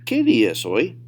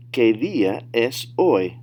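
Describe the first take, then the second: First: Fluent, louder "¿Qué día es hoy?"; advanced-level demo without stretching; natural speed. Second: Slow, louder model question; deliberate teacher demo; slow, careful model. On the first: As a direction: run the question together at native pace. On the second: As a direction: say "¿Qué día es hoy?" word by word for learners. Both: Shown as a demonstration. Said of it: "say them at natural speed".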